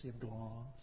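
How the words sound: It is said in a Southern accent. The speaker calls it wrong. "pronounced in the southern manner"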